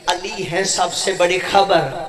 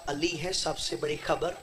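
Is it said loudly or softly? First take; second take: loudly; softly. First: It is said in a loud, full voice. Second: It is said in a soft, low voice.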